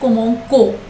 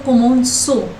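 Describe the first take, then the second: First: The c is pronounced as a k sound. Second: The c is pronounced as an s sound. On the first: The speaker calls it wrong. "If we put normal c here, the pronunciation will be" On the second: The speaker calls it right. "we want the pronunciation as"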